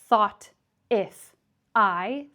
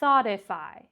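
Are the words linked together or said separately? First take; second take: separate; linked. First: Each word is said separately with breaks. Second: The words run together as one linked word. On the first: The speaker calls it wrong. "three separate words" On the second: The speaker calls it right. "we link those words together"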